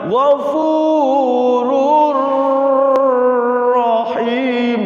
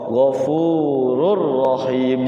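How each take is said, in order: First: The joined sound is drawn out and held long. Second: The joined r sound is short, without nasal hum. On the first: The speaker calls it wrong. "dilamakan ghafurur rahim, dilamakan, nggak boleh ya" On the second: The speaker calls it right. "idgham bila guna, memasukkan tanwin kepada huruf ra"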